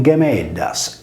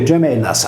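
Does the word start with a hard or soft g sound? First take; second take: hard; soft. First: It starts with a hard g sound. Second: It starts with a soft j-like sound. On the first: This is the ancient pronunciation of the word. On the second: This is the modern reading of the word.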